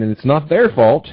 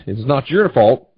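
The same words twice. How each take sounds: First: "their" stressed, slow and emphatic. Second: "your" stressed, slow and emphatic. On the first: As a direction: lean firmly on the word "their". Contrasts their fault with your fault. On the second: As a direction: lean firmly on the word "your". Contrasts your fault with their fault. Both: Real, not acted.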